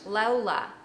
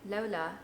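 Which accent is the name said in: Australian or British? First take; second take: Australian; British. First: It is an attempt at an Australian accent. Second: It is said in a British accent. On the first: "I can imagine it being said in an Australian accent. ... No, that's not it" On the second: "That'd be British"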